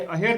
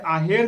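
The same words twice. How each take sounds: First: अहेर opened with a short "a"; short first vowel. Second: आहेर opened with a long "aa"; long first vowel. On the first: Teacher showing the other exam option, short first vowel. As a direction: say अहेर as "uh-her". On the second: Teacher showing an exam option, long first vowel. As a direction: say आहेर as "aa-her". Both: Shown as a demonstration. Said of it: "तब भी यही होगा".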